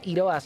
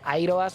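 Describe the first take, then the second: First: The name is said the classical Greek way. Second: The name is said the English way. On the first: "si lo pronunciamos en griego clásico" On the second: "al ser inglés lo pronunciarán así"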